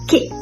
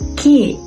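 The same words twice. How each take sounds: First: The vowel is the short I sound. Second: The vowel is replaced with an E sound. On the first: "in General American is pronounced with I sound" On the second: "in Konglish, I is being replaced with E sound"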